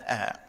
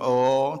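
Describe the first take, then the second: First: The vowel is thin and spread, like ah. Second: The vowel is thick and rounded, like oh. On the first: The speaker calls it right. "yang ada ah" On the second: The speaker calls it wrong. "tak ada oh"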